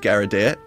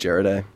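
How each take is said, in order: First: The name is said with a clumsy, misread pronunciation. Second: The name is said with an English-style pronunciation. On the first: Someone unfamiliar with the name says it this way. The speaker calls it wrong. "the never said it in their life way" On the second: This is the pronunciation the family uses. The speaker calls it right. "the Anglophone way"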